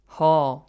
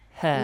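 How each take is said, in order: First: The syllable is said with a heavy, deep quality. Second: The syllable is said with a light, thin quality. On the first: The speaker calls it wrong. "Wrong, heavy. ... That's wrong" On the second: The speaker calls it right.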